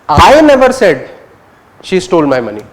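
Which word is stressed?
I. The word "I" carries the main stress. "You're focusing on I"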